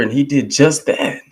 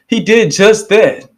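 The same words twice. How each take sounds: First: Said in the usual way. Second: Higher, louder and slow, each word punched; emphatic shout. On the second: Real, not acted. Praising the minister to listeners, slow loud shout. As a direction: slams the repeat home like a preacher.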